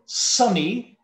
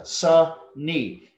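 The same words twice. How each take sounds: First: Said in the usual way. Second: "sunny" split into two separate beats, sun-ny; syllable by syllable. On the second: Shown as a demonstration. Teacher showing students two syllables, "sunny" said syllable by syllable. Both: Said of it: "that's two syllables".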